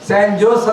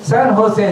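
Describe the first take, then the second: First: The second word starts with a J sound. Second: The second word starts with an H sound. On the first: This is how the name is spelled. "ಸ್ಯಾನ್ ಜೋಸ್ ಅಂತ ನೀವು spelling ಬರಿಬೇಕು" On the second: This is how the name is actually pronounced. "ಸ್ಯಾನ್ ಹೋಸೆ ಅಂತ ನೀವು pronounce ಮಾಡಬೇಕು"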